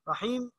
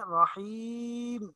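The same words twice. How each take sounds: First: The long vowel is cut short. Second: The long vowel is drawn out. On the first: The speaker calls it wrong. "रहीम यूं नहीं पढ़ेंगे" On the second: The speaker calls it right. "थोड़ा खींच के पढ़ेंगे"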